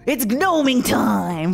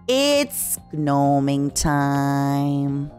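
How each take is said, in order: First: It is said in a lively, expressive way. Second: It is said in a flat, restrained way. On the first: The speaker calls it wrong. "Instead of, ... like it's morphing time" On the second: The speaker calls it right. "I just had to be like"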